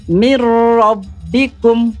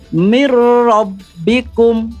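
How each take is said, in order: No difference in how they are said.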